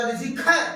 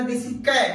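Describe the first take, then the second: First: "cat" with an open English æ; English accent "cat". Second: "cat" said the Indian way, flat kat; Indian English "cat". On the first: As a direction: mimic how an Englishman says "cat". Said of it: "अंग्रेज बोला". (अंग्रेज़ी लहजे में "cat") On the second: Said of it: "हम लोग कहते हैं". (भारतीय उच्चारण में "cat") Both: Shown as a demonstration.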